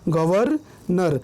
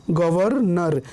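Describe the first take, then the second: First: गवर्नर slow, pause after गवर; split pronunciation. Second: Said in the usual way. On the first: Shown as a demonstration. Teacher showing र comes before न, गवर्नर slowly split. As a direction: divide गवर्नर into गवर, then नर. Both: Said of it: "र पहले आ रहा है".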